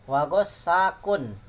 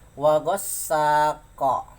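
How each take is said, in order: First: The word ends with a full 'kun' syllable. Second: The word ends on a bouncing 'q' sound. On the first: The reading continues without stopping. "kalau dibaca kun jadi seperti ini" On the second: The reading stops at this word. "kalau dibaca qalqalah sampai sini diwakafkan"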